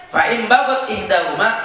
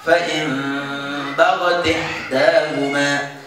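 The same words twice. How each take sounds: First: Said in the usual way. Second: Slow chanted "bagat ihdahuma" as baga-tih-dahuma; joined recitation. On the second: Shown as a demonstration. Teacher answers how to read it, slow chanted recitation. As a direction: link t into i in "bagat ihdahuma", hum the n. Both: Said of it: "maka baca gimana?".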